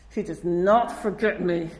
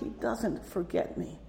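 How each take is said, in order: First: It is said in an exasperated, annoyed tone. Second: It is said in a sad, regretful tone. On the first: Being remembered feels like being pursued. "Why is he, like, following after me?" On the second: Being remembered means one's wrongs were seen. "Or sadly"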